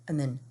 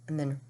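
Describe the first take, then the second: The two takes are said the same way.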